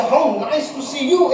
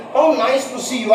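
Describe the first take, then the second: First: Pleased surprise. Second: Said in the usual way. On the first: Shown as a demonstration. Teacher greets someone, showing exclamatory surprise. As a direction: lift it with delight on "you". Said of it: "you're surprised to see the person". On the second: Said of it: "I can put a question mark".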